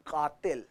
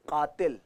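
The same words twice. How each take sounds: First: कातिल with a deep throat q; कातिल said with Urdu क़. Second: कातिल with a plain Hindi k; wrong कातिल. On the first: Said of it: "it's कातिल". (उर्दू क़ से क़ातिल) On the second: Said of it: "it's not कातिल". (हिंदी क से कातिल) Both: Shown as a demonstration.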